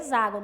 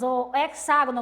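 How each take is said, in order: First: The x is said as a z sound. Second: The x is said as a ks sound. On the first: The speaker calls it right. "a pronúncia correta é hexágono. Esse X, aqui ele vai ter som de Z" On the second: The speaker calls it wrong. "como vocês quiserem chamar"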